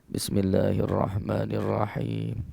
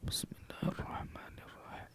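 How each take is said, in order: First: It is recited a little louder, clearly audible. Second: It is recited quietly, almost under the breath.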